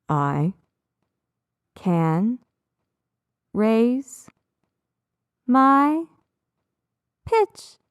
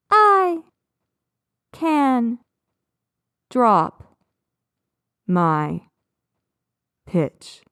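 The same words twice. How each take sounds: First: Slow, spaced words rising like a staircase; rising pitch. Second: Slow, spaced words sinking like a staircase; dropping pitch. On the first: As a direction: step the pitch up on each separate word. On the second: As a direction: step the pitch down on each separate word. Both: Shown as a demonstration. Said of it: "match the pitch of my voice".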